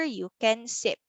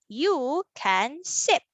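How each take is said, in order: First: Said in the usual way. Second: Slow, each word held apart; word-by-word reading. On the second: Shown as a demonstration. Teacher reads another sentence for children, word by word. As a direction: read it out one word at a time. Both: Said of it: "how about we read our sentence".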